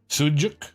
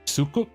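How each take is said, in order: First: The middle consonant is a J sound. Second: The middle consonant is a K sound. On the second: "If it was pronounced like a K"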